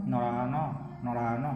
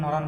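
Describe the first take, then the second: First: নরান said as "norano", lower and softer; low demo of নরান with a vowel on the end; open final vowel. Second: নরান stopped on the n; নরান with silent final vowel; closed hasanta ending. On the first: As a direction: add an o after the last ন of নরান. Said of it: "যদি হসন্ত না থাকতো". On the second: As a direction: end নরান on a bare n, no vowel. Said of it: "দন্ত ন হসন্ত আছে বলে". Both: Shown as a demonstration.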